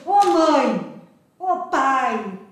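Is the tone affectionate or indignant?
indignant. It is said with indignant anger.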